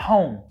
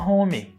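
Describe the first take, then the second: First: The word ends cleanly on the consonant. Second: An extra vowel sound follows the final consonant. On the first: The speaker calls it right. "Termina no som de M" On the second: The speaker calls it wrong. "Tem gente que ainda fala home"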